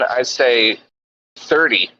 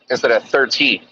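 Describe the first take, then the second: First: The middle consonant sounds like a D. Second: The middle consonant is a clear T.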